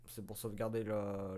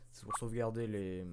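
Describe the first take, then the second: First: Said in the usual way. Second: Hushed whispered read. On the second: Acted. Reading the PC text to himself in a whisper. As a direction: breathe the words out, no voice.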